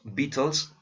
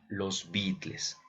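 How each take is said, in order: First: The name is pronounced the English way. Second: The name is pronounced the Spanish way. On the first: "como les podemos decir" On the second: "como les he llamado desde mi adolescencia"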